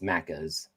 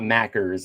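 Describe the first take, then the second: First: The R sound after the vowel is dropped. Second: The R sound after the vowel is pronounced. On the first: The speaker calls it right. "It's Maccas" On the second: The speaker calls it wrong. "It's not Mackers"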